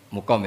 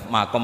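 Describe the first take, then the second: First: The first vowel is a 'u' sound. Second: The first vowel is an 'a' sound. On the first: "Mukom ya karena dari mati aqoma yukimu ikomatan" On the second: "Saya juga mau baca makom apa mukom"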